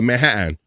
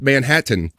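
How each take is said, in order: First: The T sounds are swallowed, not released. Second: The T sounds are clearly pronounced. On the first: The speaker calls it wrong. "They go Manhattan" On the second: The speaker calls it right. "they don't go Manhattan"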